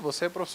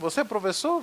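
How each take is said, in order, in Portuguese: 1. A entonação cai no final. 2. A entonação sobe no final. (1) "uma afirmativa" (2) "uma interrogativa"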